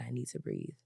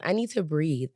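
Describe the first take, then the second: First: Much softer and lower, almost to herself; calming herself down. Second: Said in the usual way. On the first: Real, not acted. To the listeners while calming her anger, hushed and low. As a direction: talk yourself down, barely above a breath. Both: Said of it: "I have to calm myself".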